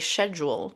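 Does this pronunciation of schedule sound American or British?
British. It is said the British way. This is how the listener still says it. The speaker calls it wrong. "you still say schedule"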